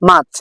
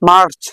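First: The r sound is left out after the vowel. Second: The r sound is pronounced after the vowel. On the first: The speaker calls it right. "আমরা এই আরটি উচ্চারণ করব না" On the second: The speaker calls it wrong. "আমরা আগে পড়তাম মার্চ"

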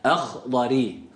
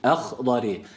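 Both takes have the same delivery.

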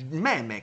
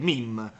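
First: It is said like Italian 'meh-meh'. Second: It is said like English 'meem'. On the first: The speaker calls it right. "è il meme, cazzo" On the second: The speaker calls it wrong. "Non è il meme"

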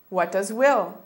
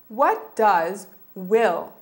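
First: The phrase is said at a faster pace. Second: The phrase is said at a slower pace.

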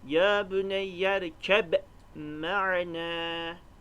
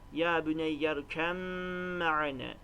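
First: A b sound is heard before 'maana'. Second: An m sound is heard before 'maana'. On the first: "Okuyalım örneği" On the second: "şeklinde okuyoruz"

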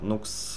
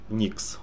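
First: The vowel is an 'oo' sound. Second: The vowel is an 'ee' sound. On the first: The speaker calls it wrong. "говорят, неправильно произносит он" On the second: The speaker calls it right. "он говорит Никс"

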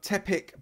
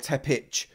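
First: The name ends with a k sound. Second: The name ends with a ch sound. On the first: "do it phonetically like a CK" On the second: "Tepic with a CH"

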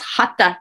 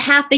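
First: The th sounds like a breathy t. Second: The th sounds like the English th. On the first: The speaker calls it right. "The TH in Sanskrit does not make the same sound as it does in English" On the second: The speaker calls it wrong. "It's not hatha yoga"

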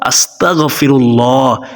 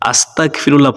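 First: The word is said slowly and carefully. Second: The word is said quickly and hurriedly. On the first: The speaker calls it right. "পড়তে হবে" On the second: The speaker calls it wrong. "অনেকে তাড়াহুড়ো করেন, যার কারণে ইস্তিগফার সঠিকভাবে উচ্চারণ হয় না"

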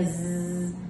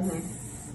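First: The buzzing is made at normal loudness. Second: The buzzing is made more quietly.

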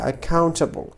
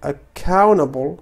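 First: The T after the N is pronounced. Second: The T after the N is dropped. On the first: The speaker calls it wrong. "وليس accountable" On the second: The speaker calls it right. "فهنا نقول accountable okay"

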